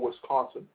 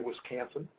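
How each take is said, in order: First: It is said in the speaker's neutral accent. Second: It is said in a local Wisconsin accent.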